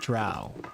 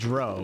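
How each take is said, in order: First: The vowel sounds like 'ow'. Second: The vowel sounds like 'oh'. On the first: This is the accepted pronunciation. The speaker calls it right. "not Drow" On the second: This is the habitual childhood pronunciation. The speaker calls it wrong. "And I also said Dro"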